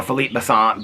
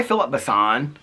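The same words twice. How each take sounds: First: Philippe Besson tried the French way, fee-LEEP beh-SON; French try. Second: Said in the usual way. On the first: Shown as a demonstration. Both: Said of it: "I don't know how you".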